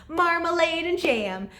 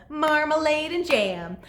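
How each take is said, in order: The two takes are said the same way.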